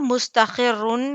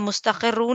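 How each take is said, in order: First: The word ends with an 'un' sound. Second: The word ends with a 'u' vowel. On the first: "मुस्तखिरुन या मुस्तखिरू नहीं होगा" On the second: "मुस्तखिरुन या मुस्तखिरू नहीं होगा"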